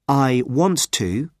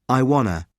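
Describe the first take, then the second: First: Each word is said fully and separately. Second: The words run together with reduced sounds.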